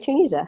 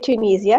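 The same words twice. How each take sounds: First: The word is pronounced the American way. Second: The word is pronounced the British way. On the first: "Americans say Tunisia" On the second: "The English say Tunisia"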